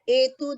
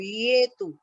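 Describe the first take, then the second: First: The phrase begins with a plain vowel sound. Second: The phrase begins with a clear y sound. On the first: The speaker calls it wrong. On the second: The speaker calls it right.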